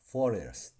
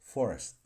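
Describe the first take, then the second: First: It is said carefully with every vowel kept. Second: It is said fast with the weak vowel dropped.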